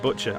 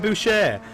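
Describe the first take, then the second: First: The surname is said like the English word butcher. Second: The surname is said with a French pronunciation. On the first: "It could be Kylie Butcher" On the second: "I'm going to pronounce it like that. They sound French"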